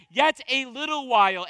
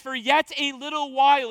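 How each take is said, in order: First: "yet" punched, the rest falling away; emphatic yet. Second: Said in the usual way. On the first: Shown as a demonstration. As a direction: stress on "yet", falling tune after it. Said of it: "In the Greek, it's emphatic". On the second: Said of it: "it's emphatic".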